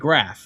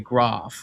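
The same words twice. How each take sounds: First: The vowel sounds like American English. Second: The vowel sounds like British English. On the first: This is how people on the Australian East Coast say it. "like Americans" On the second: This is how people in one Australian region say it. "like proper English"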